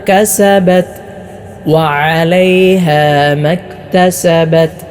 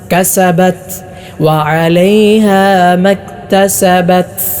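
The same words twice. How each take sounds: First: The final t is clean, with no extra air. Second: The final t is breathy, almost like an s. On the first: The speaker calls it right. "ശരിയായ രൂപം ശ്രദ്ധിച്ചു കേൾക്കൂ" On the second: The speaker calls it wrong. "പലരും ഓതാറുള്ളത്"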